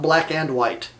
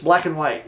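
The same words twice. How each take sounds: First: The word 'and' is pronounced fully and clearly. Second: The word 'and' is reduced to a short 'n'. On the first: The speaker calls it wrong. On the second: The speaker calls it right.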